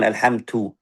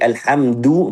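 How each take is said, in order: First: The last consonant is a breathy t sound. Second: The last consonant is a voiced d sound. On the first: The speaker calls it wrong. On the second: The speaker calls it right. "Dal bersifat jahar"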